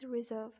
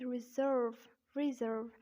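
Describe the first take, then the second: First: British "reserve", R silent before V; British accent. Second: American "reserve" with R sounded; American accent. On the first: Teacher contrasting for learners, British accent "reserve". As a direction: say 'ri-zuhv', British style. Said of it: "And in British accent". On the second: Teacher contrasting for learners, American accent "reserve". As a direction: say 'ri-zurrv', American style. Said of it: "but in American accent". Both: Shown as a demonstration.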